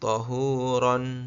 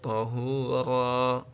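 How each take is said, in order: First: The word ends with an n sound. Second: The word ends on a lengthened vowel. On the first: The speaker calls it wrong. "jangan dibaca tahuran" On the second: The speaker calls it right. "mengganti tanwin dengan alif"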